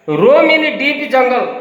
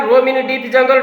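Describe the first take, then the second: First: Very slow, each word drawn out for the class; slow dictation reading. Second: Said in the usual way. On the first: Shown as a demonstration. Teacher reading the phrase to her class, very slow and deliberate. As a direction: read it out word by word for the pupils. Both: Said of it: "ତେଣୁ ଆମେ ଲେଖିବା roam in deep jungle".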